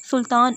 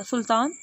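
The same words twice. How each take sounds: First: Second call, much louder and sharper. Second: First call, at normal strength; calling a name. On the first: Father calls his distracted son a second time, loud. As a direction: call out again, now loud enough to snap him out of it. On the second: Father calls his distracted son by name. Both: A narrator's reading. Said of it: "دو دفعہ اسے پکارا".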